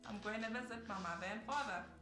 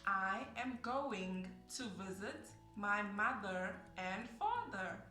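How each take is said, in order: First: Words run together in a relaxed, reduced way. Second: Every word is said separately and clearly. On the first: The speaker calls it wrong. "that's really how I would say it" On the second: The speaker calls it right. "you have to articulate every single word"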